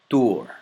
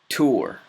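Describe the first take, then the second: First: It starts with the tongue held behind the teeth. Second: It starts with a regular English t sound. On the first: "then with the letter ta" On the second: "first with the letter T"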